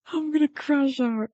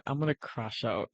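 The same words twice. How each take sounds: First: High, distressed wail; crashing out. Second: Low, soft, defeated; crashing out quietly. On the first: Streamer can't get the stream back, openly crashing out. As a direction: let it climb into a high whine. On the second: Streamer still waiting on a dead connection, quietly crashing out. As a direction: say it under your breath, worn down. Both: Real, not acted.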